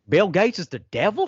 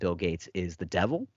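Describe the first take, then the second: First: It is said in a put-on accent. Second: It is said in his normal voice.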